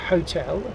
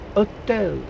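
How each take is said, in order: First: The h at the start is pronounced. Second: The h at the start is dropped. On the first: This is how the English say it. "as we wrongly do" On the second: This is how the French say it. "perhaps you say"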